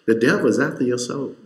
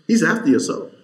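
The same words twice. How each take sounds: First: Said in the usual way. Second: He's stressed, higher and louder; rising preacher's emphasis; emphatic. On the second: Real, not acted. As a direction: drive the line home on He's.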